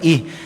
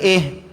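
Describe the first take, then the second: First: The vowel is a close 'ee' sound. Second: The vowel is an open 'eh' sound. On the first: The speaker calls it right. "baris bawah ih" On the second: The speaker calls it wrong. "Bukan eh"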